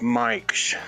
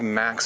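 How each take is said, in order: First: It has an 'ai' vowel and a 'sh' ending. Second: It has a plain a and plain x sound.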